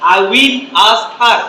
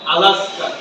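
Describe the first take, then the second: First: Each word is said slowly and separately. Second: The words are said fast and run together. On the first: This is how non-native learners say it. "আমাদের মতো বলে" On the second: This is how native speakers say it. "স্পিডি বলার কারণে সব উচ্চারণটা হয়ে যায় এরকম"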